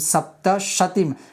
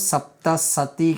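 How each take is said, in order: First: The second word begins with an sh sound. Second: The second word begins with an s sound. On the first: The speaker calls it right. "અહીંયા છે શતીમ" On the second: The speaker calls it wrong. "ઘણા લોકો સપ્ત સતી કહે છે"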